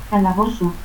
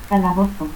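First: Calabozo as "calabosu"; S for Z and final u in Calabozo; seseo. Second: Said in the usual way. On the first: Shown as a demonstration.

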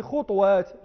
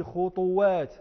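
First: خطوات said slowly "khut-WAAT", no vowel after the t; sukun before echoing. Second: خطوات said slowly "khu-tu-WAAT", u after the t; echoed damma. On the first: Teacher giving an example, خطوات as "khutwaat". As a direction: close the first syllable of خطوات on t. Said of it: "وضمت الميم إتباعا للجيم". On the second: Teacher giving an example, خطوات as "khutuwaat". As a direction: add an echoing u in خطوات. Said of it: "وكل ذلك للإتباع". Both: Shown as a demonstration.

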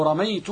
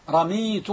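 First: رميت said "ramaytu", ay after the m; رميت with fatha on the mim, ay sound; fatha variant. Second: رميت said "ramiitu", long ee after the m; رميت with kasra on the mim, ee sound; kasra variant. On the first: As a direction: say رميت with the diphthong ay, ra-MAY-tu. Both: Shown as a demonstration. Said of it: "لا تظن أنه قد لحن".

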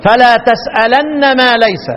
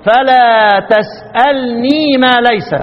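First: تسألن with a doubled, held nun and no ya; Ibn Kathir reading. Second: تسألني with a light nun and the final ya sounded; Abu Amr reading. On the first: Teacher contrasting Ibn Kathir's reading for students, slow recitation. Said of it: "ابن كثير". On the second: Teacher contrasting Abu Amr's reading for students, slow recitation. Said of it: "أبو عمرو". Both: Shown as a demonstration.

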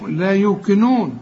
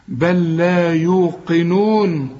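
First: يوقنون slowly with a front k, "yu-kinoon"; qaf turned kaf. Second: يوقنون very slowly with a back-of-throat q; true deep qaf. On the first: Retold or imitated. Teacher imitates people who misread it, qaf as kaf. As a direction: say the ق of يوقنون wrongly as k. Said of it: "ناس بتحول القاف لكاف". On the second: Shown as a demonstration. Teacher models the correct recitation, true qaf. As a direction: draw out بل لا يوقنون, making the ق a real qaf. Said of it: "طلع القاف قاف".

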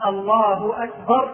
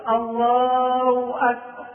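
First: الله with its final h clearly sounded before أكبر; slow takbir keeping the ha of الله; correct takbir. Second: الله held long and ending in -aw, Allaaw akbar; very slow takbir with الله as Allaaw; ha replaced by waw. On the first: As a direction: say Allaahu akbar with a clear hu in الله. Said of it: "بدل ما يقول". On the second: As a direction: drop the h of الله for a w glide. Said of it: "وإبدالها واوا". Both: Shown as a demonstration.

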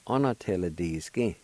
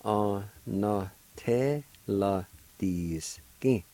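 First: Said in the usual way. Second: Onateladiskin stretched out very slowly, syllable by syllable; very slow pronunciation. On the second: Shown as a demonstration. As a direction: drag out Onateladiskin slowly for the learner. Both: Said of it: "is pronounced like this".

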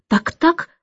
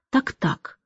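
First: High rising Так-так; Так-так lifted high with a rise; in varied tones. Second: Так-так dropped almost under the breath; in varied tones. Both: A narrator's reading. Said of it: "на разные лады".

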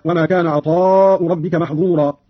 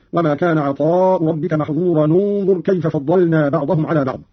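First: Said in the usual way. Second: "محظورا انظر" linked as "mahdhura-nu-ndhur"; damma on joining. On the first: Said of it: "قرأ قالون بضم أولى الساكنين". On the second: Shown as a demonstration. Teacher demonstrates Qalun's joined reading, damma linking "محظورا انظر". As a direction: join "محظورا" to "انظر" with a nu sound. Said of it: "بضم أولى الساكنين".

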